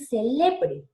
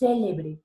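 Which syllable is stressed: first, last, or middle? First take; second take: middle; first. First: The stress is on the middle syllable. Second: The stress is on the first syllable. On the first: "Se quedó en el medio, se volvió, ¿qué? Una grave" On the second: "se volvió una palabra esdrújula"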